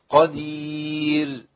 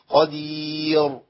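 First: The final r is light, keeping the y shape. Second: The final r is heavy, with rounded lips. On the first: The speaker calls it right. "خلي الهيئة بتاعت الياء ماشية معايا" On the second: The speaker calls it wrong. "لو رجعت الشفتين للأمام كده هحصل إيه؟ فخم"

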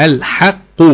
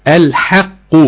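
The two takes are said the same way.

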